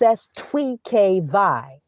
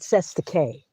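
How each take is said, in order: First: It sounds like 'sestuy kvee'. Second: It sounds like 'sesta kay'. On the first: The speaker calls it right. "It's Sestuy Kvi" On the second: The speaker calls it wrong. "It's not Sesta K"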